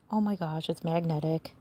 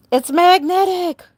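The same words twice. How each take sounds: First: Much softer, amazed under the breath; musing to herself after the outburst, hushed; quiet aside. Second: Higher and louder, thrilled at the discovery; showing off a fun surprise to viewers, excited; excited exclamation. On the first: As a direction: murmur it to yourself. Repeats discovery under breath. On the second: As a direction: burst out in real delight. Delighted discovery of magnet. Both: Real, not acted.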